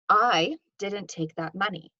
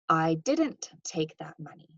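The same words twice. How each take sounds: First: The stress falls on the word "I". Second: The stress falls on the word "didn't". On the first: Someone else took the money. "This implies that potentially somebody else did" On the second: The speaker firmly denies taking the money. "Note that there's kind of some denial here"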